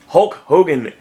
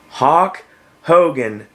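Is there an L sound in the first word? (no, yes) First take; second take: yes; no. First: The first word has a clear L sound. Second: The first word has no L sound. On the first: The speaker calls it right. "How hard is it to say Hulk Hogan?" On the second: The speaker calls it wrong. "Don't say Hawk Hogan"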